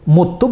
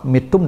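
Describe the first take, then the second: First: The first vowel is a u sound. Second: The first vowel is an i sound. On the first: The death is more honorable. "muttum dengan dhammah" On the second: The death is lowly. "mittum dengan kasrah"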